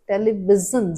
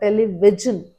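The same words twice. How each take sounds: First: The middle consonant is a z sound. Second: The middle consonant is not a z sound. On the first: The speaker calls it right. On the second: The speaker calls it wrong.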